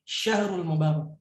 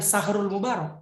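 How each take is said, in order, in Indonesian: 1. Kata pertama dimulai dengan bunyi sh. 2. Kata pertama dimulai dengan bunyi s biasa. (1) "tapi syahrul mubarak" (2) "Bukan sahrul mubarak"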